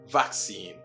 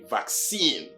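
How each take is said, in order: First: The stronger stress is on the first syllable. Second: The stronger stress is on the last syllable. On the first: This is the British English pronunciation. "British English, has the word pronounced vaccine, primary stress... is on the first syllable" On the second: This is the American English pronunciation. "in the American English, they say vaccine; the first syllable takes the secondary or the weaker stress"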